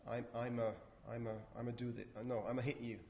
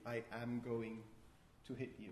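First: 'Going to' is squeezed into a short reduced sound. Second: Every word, including 'going to', is said in full.

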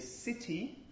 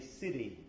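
First: The middle t is a full released stop. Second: The middle t is a quick tap. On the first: The speaker calls it wrong. "you wouldn't say city" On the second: The speaker calls it right. "It's basically just a tap"

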